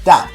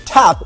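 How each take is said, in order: First: The first consonant has no puff of breath. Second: The first consonant has a puff of breath. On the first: "perceived by many native English speakers as dap" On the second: "we tend to aspirate our voiceless"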